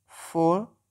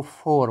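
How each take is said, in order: First: फ़ोर with no R, ending on a long open vowel; British pronunciation. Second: फ़ोर with the R clearly sounded at the end; American pronunciation. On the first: (फ़ोर को British अंदाज़ में, आर के बिना) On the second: (फ़ोर को अमेरिकी अंदाज़ में, आर साफ़ बोलते हुए) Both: Shown as a demonstration. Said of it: "American आर pronounce करते हैं".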